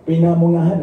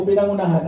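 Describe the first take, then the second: First: "Pinamungahan" repeated back, slightly louder with a rise; "Pinamungahan" said right after being corrected; corrected place name. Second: "Pinangunahan", the slip before the correction; "Pinangunahan" with the syllables swapped; mispronounced place name. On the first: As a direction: say "Pinamungahan" as pi-na-mu-nga-han, m then ng. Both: Real, not acted.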